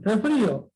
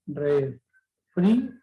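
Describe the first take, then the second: First: Said in the usual way. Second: "refrío" slowly broken up as re, frí, o; long pauses inside "refrío"; split into syllables. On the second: Shown as a demonstration. ("refrío" silabeado despacio: re, frí, o) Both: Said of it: "Se han separado".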